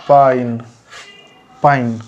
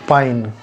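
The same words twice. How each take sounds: First: पाइन with the i gliding after the a; pronounced paain. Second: पाइन said as "pa-in", the i after the a; pronounced paain. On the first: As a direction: stress the a, then i in पाइन. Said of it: "पानी जो है वो उच्चारण होगा". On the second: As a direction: say पाइन with the i sound after the a, not पानी. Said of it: "लिखा जाता है पानी पर उच्चारण होता है पाइन". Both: Shown as a demonstration.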